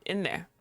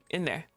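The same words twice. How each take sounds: The two takes are said the same way.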